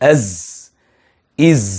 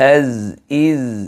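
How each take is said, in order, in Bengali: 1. z ধ্বনিটি খুব শক্ত করে বলা হয়। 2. z ধ্বনিটি হালকা গুঞ্জনের সঙ্গে বলা হয়। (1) "খুব শক্ত করে" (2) "হালকা করে আমরা বাজাবো"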